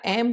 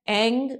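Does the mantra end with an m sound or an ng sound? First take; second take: m sound; ng sound. First: The word ends with a closed m sound. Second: The word ends with a nasal ng sound. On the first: This is the form some other people use. "कई लोग ऐम बोलते हैं" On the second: This is the form used in the speaker's own tradition. "हमारे परंपरा में ऐंग बोलते हैं"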